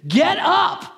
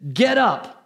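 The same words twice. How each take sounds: First: It is said forcefully, like an exclamation. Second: It is said calmly, without force.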